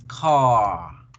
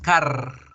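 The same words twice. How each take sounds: First: The vowel is long and the R soft. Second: The R is strongly trilled. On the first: The speaker calls it right. "Nosotros debemos pronunciar realmente es car" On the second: The speaker calls it wrong. "por eso no decimos car"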